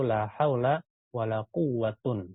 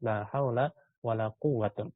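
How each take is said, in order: First: The last word ends in 'un'. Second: The same.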